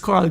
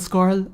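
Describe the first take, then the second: First: The name begins with a plain k sound. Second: The name begins with an sk sound. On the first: The speaker calls it right. "it's Carl, guys" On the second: The speaker calls it wrong. "it just kept going as Scarl Scarl Scarl"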